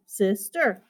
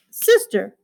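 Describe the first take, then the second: First: SISTER softer, "sis" and "ter" apart; split into syllables. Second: Said in the usual way. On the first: Shown as a demonstration. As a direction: break "sister" into two gentle beats. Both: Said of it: "Two syllables".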